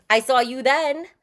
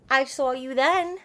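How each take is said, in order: First: Said in the usual way. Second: Drawn-out knowing tease; teasing. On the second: Shown as a demonstration. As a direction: tease him with it.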